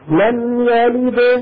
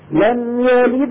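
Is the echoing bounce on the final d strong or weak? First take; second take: strong; weak. First: The final d is released with a strong bounce. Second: The final d has a light bounce into the next word. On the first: The reciter stops on this word. "لم يلد هذه كبرى" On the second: The reciter continues without stopping. "لم يلد ولم هذه صغرى"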